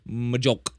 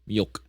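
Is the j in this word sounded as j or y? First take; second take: j; y. First: The j is sounded like an English j. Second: The j is sounded like an English y. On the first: The speaker calls it wrong. "Otherwise, it would just be Majok" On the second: The speaker calls it right. "J in Swedish is pronounced as Y"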